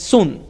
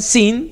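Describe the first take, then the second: First: The vowel sounds like 'oo'. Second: The vowel sounds like 'ee'. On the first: "algunos lo pronuncian sun" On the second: "algunos lo pronuncian sin"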